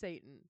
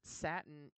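First: It is said like the devil's name 'Satan'. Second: It is said like the fabric 'satin'. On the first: This is how everyone will actually say it. The speaker calls it right. "It's pronounced Satan" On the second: This is how the parent wants it said. The speaker calls it wrong. "pronounce it Satin"

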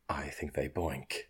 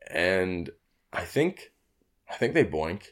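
First: It is said in a put-on soothing character voice. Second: It is said in a natural speaking voice.

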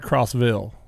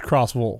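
First: The ville ending is said the northern way. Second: The ville ending is said the southern way. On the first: The speaker calls it wrong. "it's not Crossville" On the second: The speaker calls it right. "It's Crossville. they don't pronounce the Villes like we do up here"

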